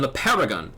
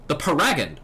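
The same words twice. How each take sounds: First: "paragon" said PAIR-uh-gun; first-syllable stress. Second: "paragon" said puh-RAG-un; second-syllable stress. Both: Acted. Repeats word with other pronunciation.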